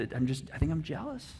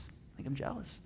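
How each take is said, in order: First: Said in the usual way. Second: "I think I'm jealous" whispered, barely audible; hushed whisper of "I think I'm jealous". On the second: Shown as a demonstration. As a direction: breathe it out like a secret confession. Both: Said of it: "repeats the admission in a whisper".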